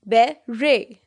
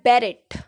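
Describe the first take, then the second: First: The word ends without any t sound. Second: The word ends with a clear t sound. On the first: The speaker calls it right. "This is बेरे।" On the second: The speaker calls it wrong. "बहुत लोग इसको बोलते हैं बेरेट, but ये बेरेट नहीं है।"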